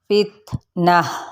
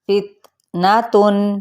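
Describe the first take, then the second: First: The word ends with a soft 'h' sound. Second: The word ends with a full 'tun' sound. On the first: The reader stops on this word. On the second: The reading continues without stopping.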